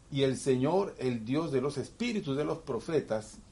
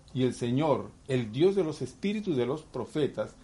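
The two takes are said the same way.

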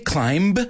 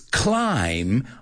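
First: The B at the end is pronounced. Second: The B at the end is silent. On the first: The speaker calls it wrong. "Did I say climb? No" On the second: The speaker calls it right. "That B is a silent B"

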